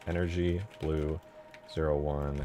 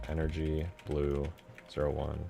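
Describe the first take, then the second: No difference in how they are said.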